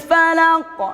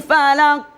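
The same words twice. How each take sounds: First: The final q ends with a strong bounce. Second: The final q stops flat without a bounce. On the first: The speaker calls it right. "Mana yang benar? Yang pertama atau yang kedua? Kedua" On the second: The speaker calls it wrong. "Salah atau benar? Salah"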